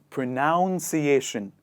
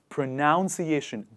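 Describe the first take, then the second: No difference in how they are said.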